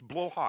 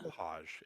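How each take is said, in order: First: The first syllable sounds like 'blow'. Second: The first syllable sounds like 'blah'. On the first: The speaker calls it right. "I love to say it the right way" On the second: The speaker calls it wrong. "people constantly call this little guy Blahaj, and it's not"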